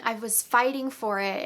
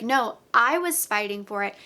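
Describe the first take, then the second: First: Said in the usual way. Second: "I" pressed hard against his claim; retold retort with the weight on "I"; stress on I. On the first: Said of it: "he says, "Well, I, I've just been". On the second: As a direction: push the word "I", not him but me. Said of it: "And she's like".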